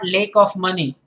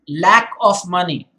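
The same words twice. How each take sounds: First: The vowel in lack sounds altered. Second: The vowel in lack sounds standard. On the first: The speaker calls it wrong. "It's not lack of money" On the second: The speaker calls it right. "It is lack of money"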